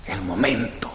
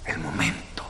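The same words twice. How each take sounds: First: Soft emphasis. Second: El momento whispered, breath only, no voice. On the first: Preacher to congregation, soft and lingering. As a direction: lower and softer, lingering on momento. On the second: Preacher drawing the congregation close, whispered. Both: Shown as a demonstration.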